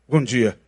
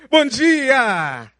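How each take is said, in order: First: It is said coldly and grudgingly. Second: It is said warmly and cheerfully.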